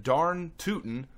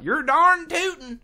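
First: Said in the usual way. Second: "darn tootin'" high and slow in a put-on country twang; hammed-up hometown drawl; Gary's twang. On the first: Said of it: "he said". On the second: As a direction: toss off the folksy line like a rural cousin. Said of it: "something like".

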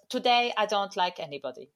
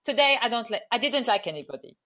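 First: A light attempt at an Italian accent; mock Italian accent, barely there; Sarri's Italian accent. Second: Put-on second go at Italian accent; imitating Sarri's Italian accent. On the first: Quoting the manager in a weak Italian accent. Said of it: "I was trying to do his accent". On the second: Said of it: "So his answer".

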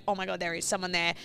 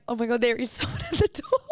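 First: Quiet retold shock without laughter; mildly stunned reenactment; understated shock. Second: High retold shock collapsing into laughter; laughing disbelief. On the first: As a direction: say it stunned, barely raised. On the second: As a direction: act shocked, then crack up on the last words.

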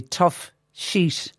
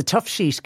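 First: Put-on "Tough Sheet" in a light Mexican accent; jokey, lightly put-on Mexican accent. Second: Said very carefully. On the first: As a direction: try a hint of a Mexican accent. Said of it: "because I said it with an, a Mexican accent". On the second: Real, not acted. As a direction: TOUGH SHEET said carefully as two distinct words. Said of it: "I have to say this very carefully".

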